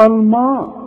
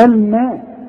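First: الماء with a thick, dark "maa"; over-darkened "al-maw" sound on الماء; heavy meem, mistaken. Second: الماء with a thin, front "ma"; raised, careful light "al-ma" on الماء; correct light meem. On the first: Retold or imitated. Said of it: "ما تقولش الماء". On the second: Shown as a demonstration. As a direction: keep both lam and meem light in الماء. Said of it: "ما احنا قلنا الميم ما".

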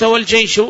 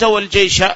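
First: والجيش lifted high and loud; raised quoted word. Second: والجيش said higher and louder; raised quoted word. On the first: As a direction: set والجيش apart as the second reading. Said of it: "وإذا قلت". (إبراز والجيش بنبرة مرتفعة) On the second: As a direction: set والجيش apart as the quoted form. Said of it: "لكن إذا قلت". (إبراز كلمة والجيش بصوت أعلى) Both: Shown as a demonstration.

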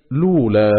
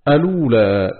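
First: لولا said as "lūlā", no opening hamza and a damma on the lam; second reading demo. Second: الأولى said as "alūlā", with the opening hamza and a damma on the lam; first reading demo. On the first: Reciter demonstrating the second way of starting, لولا as "lūlā". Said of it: "بضم اللام وحذف همزة". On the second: Reciter demonstrating Abu Amr's first way of starting, الأولى as "alūlā". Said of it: "بإثبات همزة الوصل وضم اللام بعدها". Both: Shown as a demonstration.

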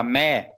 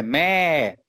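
First: "mé" short, without the long Thai tone; wrong tone. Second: "mé" held long on its tone; correct Thai tone. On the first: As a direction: say "mé" briefly, like an ordinary syllable. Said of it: "falar mé é outra coisa". ("mé" curto, sem o tom alongado) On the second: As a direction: draw "mé" out slowly as a toned syllable. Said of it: "aí é mãe". ("mé" longo, no tom de mãe) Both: Shown as a demonstration.

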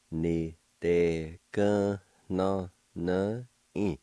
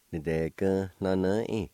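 First: "Ni de gun no no in" slow and segmented; syllable by syllable. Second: "Ni de gun no no in" run together as one word; blended word demo. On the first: Teacher pronouncing word number four for learners, slowly in syllables. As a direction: draw out each syllable separately. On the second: Teacher pronouncing word number four for learners, syllables joined up. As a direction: join the syllables smoothly. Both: Shown as a demonstration. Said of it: "now I'll pronounce these words".

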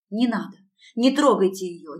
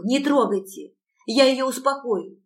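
First: Loud desperate begging; pleading. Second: Higher, louder frantic begging; pleading. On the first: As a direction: beg them to stop. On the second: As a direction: plead frantically, pitch rising. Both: A narrator's reading. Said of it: "взмолилась я".

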